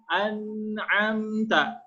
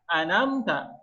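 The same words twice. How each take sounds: First: The throat consonant is clearly pronounced. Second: The throat consonant is dropped entirely. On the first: You have bestowed favor. The speaker calls it right. "bacaan yang benar" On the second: You have put them to sleep. The speaker calls it wrong. "menghilangkan huruf ain"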